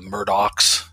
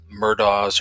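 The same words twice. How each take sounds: First: The name is said the local Lowcountry way. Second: The name is said in a non-local way.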